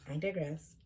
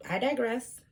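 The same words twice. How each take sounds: First: Said in the usual way. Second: Higher, mannered "I digress"; mock posh aside. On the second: Shown as a demonstration. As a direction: say it like a prim lecturer.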